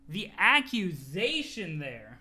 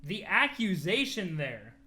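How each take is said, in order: Both takes have the same delivery.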